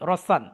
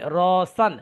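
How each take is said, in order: First: The first vowel is kept short. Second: The first vowel is drawn out long. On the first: The speaker calls it right. "ঠিক করে পড়ি রসান" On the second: The speaker calls it wrong. "যেহেতু আমার এখানে টান হয়ে গেছে"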